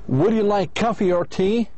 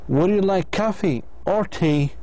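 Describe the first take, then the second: First: The voice rises on coffee and rises on tea. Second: The voice rises on coffee and falls on tea. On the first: It asks whether the listener wants a drink at all. "So your voice should goes up twice" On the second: It asks the listener to choose one of the two drinks. "The speaker's voice goes up on the first item and down on the second item"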